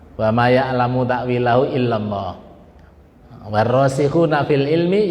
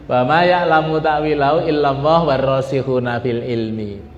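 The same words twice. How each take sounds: First: There is a pause after illallah. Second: It runs on after illallah without pausing.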